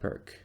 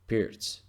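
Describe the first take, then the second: First: The name ends with a k sound. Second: The name ends with a ts sound. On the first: This is the widely understood pronunciation. The speaker calls it wrong. "not perk" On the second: This is the authentic pronunciation. The speaker calls it right. "in Ukrainian and Russian languages, we also have Pirz, yes, Pirz even"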